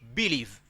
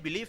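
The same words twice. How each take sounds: First: The stress is on the first syllable. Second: The stress is on the second syllable. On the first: The speaker calls it wrong. "if I put the stress on B" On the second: The speaker calls it right. "the stress is on L"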